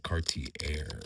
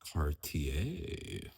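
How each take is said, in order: First: The name is said in a plain, casual way. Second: The name is said in a careful, sophisticated way. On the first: The speaker calls it wrong. "I would say Cartier, but I'm not very sophisticated" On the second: The speaker calls it right. "try to pronounce it correctly and say Cartier"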